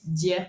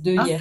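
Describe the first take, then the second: First: The vowel of 'de' is dropped and linked. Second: The vowel of 'de' is fully pronounced. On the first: "pour le dire plus vite, tu dis d'hier" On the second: "Mais c'est de hier"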